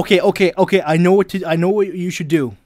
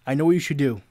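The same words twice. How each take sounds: First: Eager loud. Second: Said in the usual way. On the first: Real, not acted. Eager to give advice.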